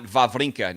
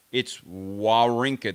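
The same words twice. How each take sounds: First: "Wawrinka" said with V sounds, as Vavrinka; V pronunciation of Wawrinka. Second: "Wawrinka" said slowly with a clear W sound, no V. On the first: Showing the chat the wrong version, Wawrinka with V sounds. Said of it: "It's not Wawrinka". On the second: Correcting the chat, slow clear Wawrinka with a W. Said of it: "There's no V's". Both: Shown as a demonstration.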